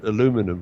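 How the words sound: It is said the American way, four syllables. "I'll give it the American pronunciation"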